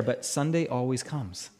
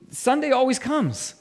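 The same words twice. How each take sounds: First: Low, soft, understated refrain; hushed, settled promise; quiet assurance. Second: Raised pitch, emphatic refrain; lifted, ringing declaration; triumphant proclamation. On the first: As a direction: say it low and softly, with quiet certainty. Preacher's first, understated take of refrain. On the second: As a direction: proclaim it as the victorious payoff. Preacher repeats the refrain triumphantly. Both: Real, not acted.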